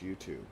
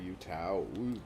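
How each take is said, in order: First: The word is pronounced in the usual way. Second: The word is pronounced in an odd, altered way. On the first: The speaker calls it wrong. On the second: The speaker calls it right.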